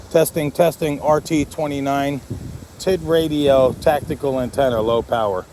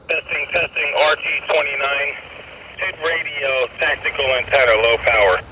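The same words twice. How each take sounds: First: Said in the usual way. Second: Heard through a radio; as if over a handheld radio; over walkie talkie. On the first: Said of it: "So really good unit". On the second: Shown as a demonstration. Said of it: "I just wish the audio was clearer on that".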